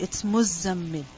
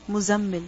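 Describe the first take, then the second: First: The z sound is held long and doubled. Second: The z sound is short and single. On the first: The speaker calls it right. "the Zai has a shadda on it" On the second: The speaker calls it wrong. "Many people pronounce the word Muzzammil as Muzammil"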